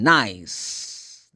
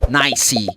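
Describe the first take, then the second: First: The word ends on the final consonant sound. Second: An extra vowel sound follows the final consonant. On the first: The speaker calls it right. "The last sound is s" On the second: The speaker calls it wrong. "You don't say"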